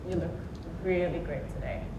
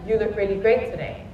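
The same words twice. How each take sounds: First: It is said with a mocking, sarcastic tone. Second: It is said warmly and sincerely. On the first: The compliment is not meant. "You'll know I'm being sarcastic" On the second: The compliment is meant honestly. "with a genuine smile and eye contact"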